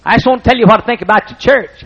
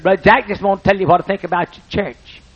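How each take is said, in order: First: Much higher and louder, insistent; loud, insistent old farmer; Wood repeating emphatically. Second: Much higher, earnest country voice; lightly voiced earnest farmer; Wood's earnest opening. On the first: Retold or imitated. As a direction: press the point with full feeling. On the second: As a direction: build up to something important. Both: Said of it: "he talked like this".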